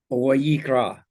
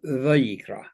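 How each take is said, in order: First: The word begins with a w sound. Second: The word begins with a v sound. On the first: This is how Yemenite speakers say it. "The Yemenites would pronounce it as a w" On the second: This is how it is said today. "we pronounce it today as a v"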